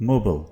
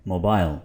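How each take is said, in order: First: मोबाइल ending in a reduced "-bul"; American pronunciation. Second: मोबाइल ending in a full "-bile"; British pronunciation. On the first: Teacher shows what Americans say, American pronunciation. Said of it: "American इसको बोलेंगे". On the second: Teacher contrasts it for learners, British pronunciation. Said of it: "और British क्या बोलते हैं". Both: Shown as a demonstration.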